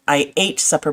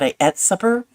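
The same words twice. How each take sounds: First: Ate is said with the standard 'ayt' vowel. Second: Ate is said 'et', a Scottish-derived form.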